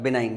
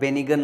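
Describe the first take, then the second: First: The g is silent, like bi-nine. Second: The g is pronounced, like be-ni-gun. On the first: The speaker calls it right. "बिनाइन इसका सही pronunciation होता है, जी यहाँ पे silent होता है" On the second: The speaker calls it wrong. "इसको मैं बेनिगन पढ़ रहा हूँ"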